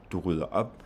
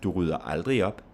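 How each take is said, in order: First: Only final "op" stressed, "Du rydder" light. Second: "aldrig" and "op" stressed, "Du rydder" light. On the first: Teacher showing final-word stress, weight only on "op". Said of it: "only have stress on the final word". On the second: Teacher adding an adverb, stress on "aldrig" and "op". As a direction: lean on "aldrig", then "op". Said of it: "we do on the adverb and on the final word". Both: Shown as a demonstration.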